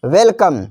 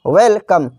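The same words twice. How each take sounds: First: Said in the usual way. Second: "वेलकम" in two parts, वेल then कम; a small break inside "वेलकम", after वेल; split into two words. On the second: Shown as a demonstration. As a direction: separate "वेलकम" into well and come. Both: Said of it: "इसका भी संधि विच्छेद है".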